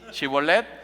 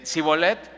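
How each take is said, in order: First: The word begins with an 'sh' sound. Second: The word begins with an 's' sound.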